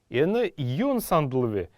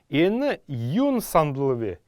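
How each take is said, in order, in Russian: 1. Частица редуцируется до одного звука v. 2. Частица редуцируется до одного звука v.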